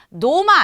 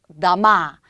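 First: The first vowel is a full 'o' sound. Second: The first vowel is a reduced 'a' sound. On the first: The speaker calls it wrong. "노마 아니에요" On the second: The speaker calls it right. "복수형 나마"

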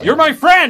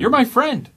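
First: The line is yelled loudly. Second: The line is said at normal, quiet volume. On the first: "Why are you yelling at me?" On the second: "I don't like how you said that"

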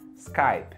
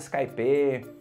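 First: It is said with an American English pronunciation. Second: It is said with a Brazilian Portuguese pronunciation. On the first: The speaker calls it right. "a pronúncia certa no inglês americano é Skype" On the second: The speaker calls it wrong. "eu já peguei gente falando Skype"

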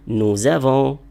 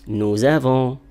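The two takes are said the same way.

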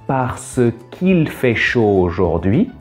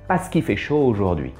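First: Every syllable is said fully and distinctly. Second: Syllables are dropped and run together quickly. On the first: "La prononciation normale" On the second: "La prononciation rapide"

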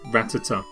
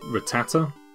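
First: The stress is on the first syllable. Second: The stress is on the middle syllable. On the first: "I always put it at this in the rat" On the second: "put the emphasis on the tat in the middle"

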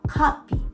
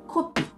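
First: The first vowel is an open 'ah' sound. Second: The first vowel is a rounded 'o' sound. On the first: "O の部分をO じゃなくて、あで発音する" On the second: "日本語で言うと"

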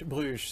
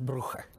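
First: The name is said the French way. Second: The name is said the Flemish Dutch way. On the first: "se on sitten niin kuin ranskas" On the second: "sehän on flaamilaista aluetta, se olisi Brugge"

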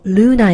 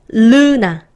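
First: The word is said timidly and softly. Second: The word is said boldly and clearly. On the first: The speaker calls it wrong. "르나 이렇게 막 좀 부끄럽게 하지 마시고" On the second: The speaker calls it right. "자신 있게"

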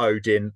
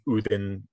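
First: The name is said the familiar English way. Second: The name is said the Old Norse way. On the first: The familiar form helps the audience follow. "Or Odin" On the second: The original form may confuse the audience. "rather than Udin"

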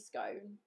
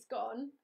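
First: The vowel does not rhyme with gone. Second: The vowel rhymes with gone. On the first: "it has to be scone, as in" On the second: "scone, as in gone"

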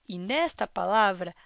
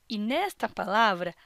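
No difference in how they are said.

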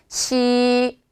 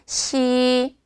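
No difference in how they are said.

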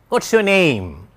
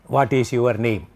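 First: Only what and name are stressed. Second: Every word is given equal stress. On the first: The speaker calls it right. "Stress timed language. What, of course, is stressed. Your is not stressed. Name is stressed" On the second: The speaker calls it wrong. "That is typical Indian way of asking a question. Because we stress each and every word"

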